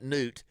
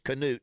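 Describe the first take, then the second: First: The name starts with a plain N sound. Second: The name starts with a sounded K. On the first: The speaker calls it wrong. "not Newt" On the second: The speaker calls it right. "I said it correctly. It's Canute"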